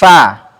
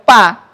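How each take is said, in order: First: It begins with a breathy f sound. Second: It begins with a p sound. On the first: The speaker calls it right. "Perut bibir bawah bertemu dengan gigi seri atas dengan sifat apa? Hams" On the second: The speaker calls it wrong. "Berarti tidak boleh pa"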